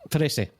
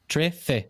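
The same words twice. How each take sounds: First: The middle consonant is a plain 's' sound. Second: The middle consonant is a lisped 'th' sound. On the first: This is how others from another region say it. "They don't lisp on the on the S sound" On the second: This is how the speaker says it. "the tongue against the two teeth"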